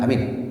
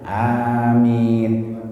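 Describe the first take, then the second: First: The vowels are said short and clipped. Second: The vowels are drawn out long. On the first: The speaker calls it wrong. "Jangan bilang amin gitu" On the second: The speaker calls it right. "A-nya panjang, mi-nya panjang"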